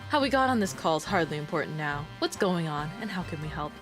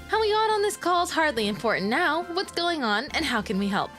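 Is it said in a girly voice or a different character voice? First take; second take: character voice; girly voice. First: It is said in a different character voice. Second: It is said in a girly streamer voice.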